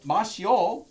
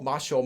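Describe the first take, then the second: First: The last vowels are said as separate syllables. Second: The last vowels merge into one quick syllable.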